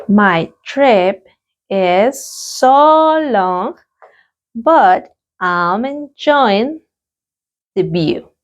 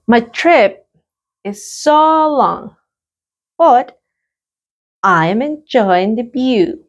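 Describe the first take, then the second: First: Very slow, stretched repetition; a drawn-out classroom repetition; very slow repeat. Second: Slow, clear model answer; a teacher's slow model answer. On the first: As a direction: draw out so long for learners. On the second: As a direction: lift and stretch so long. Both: Shown as a demonstration. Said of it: "Let's practice the pronunciation".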